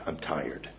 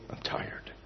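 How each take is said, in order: First: "I'm tired" voiced but very soft and low; soft and weary. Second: "I'm tired" whispered, trailing away to nothing; fading whisper. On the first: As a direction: say "I'm tired" quietly, drained. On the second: Retold or imitated. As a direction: let "I'm tired" fade into a breath. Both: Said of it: "He just repeated it".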